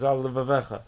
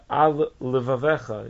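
First: The two l sounds merge with no gap. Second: A small gap separates the two l sounds. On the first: The speaker calls it wrong. "It shouldn't be read straight as" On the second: The speaker calls it right. "important to space those letters"

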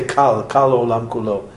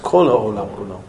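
First: The first word is said with an 'a' vowel. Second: The first word is said with an 'o' vowel. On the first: The speaker calls it wrong. "You don't say kal olam kulo" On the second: The speaker calls it right. "It's kol olam kulo"

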